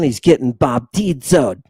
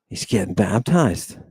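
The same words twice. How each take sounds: First: "baptizoed" said with a Greek "-izo" ending, bap-tee-DZO-ed; mock-Greek "baptizoed"; Greek-style pronunciation. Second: Said in the usual way. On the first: Shown as a demonstration. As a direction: play with the Greek root in "baptizoed".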